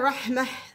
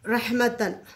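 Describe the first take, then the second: First: The word ends with a soft h sound. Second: The word ends with a t and n sound.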